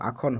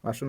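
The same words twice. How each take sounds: First: The middle consonant is a kh-like sound. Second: The middle consonant is a plain s sound. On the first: The speaker calls it right. "খৰ দৰে হ'ব আসন" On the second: The speaker calls it wrong. "আসন নহ'ব"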